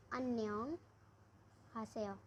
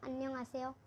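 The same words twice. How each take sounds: First: हासेयो begins with a clear breathy h. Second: आसेयो begins on an open vowel with no h sound; without the h. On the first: Teacher shows students the second of two ways, with h. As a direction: say अन्यांग हासेयो, sounding the h. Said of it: "इसको इस तरीके से ही बोल सकते हैं". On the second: Teacher shows students the first of two ways, no h. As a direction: say अन्यांग आसेयो, dropping the h. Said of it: "इसको इस तरीके से बोल सकते हैं". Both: Shown as a demonstration.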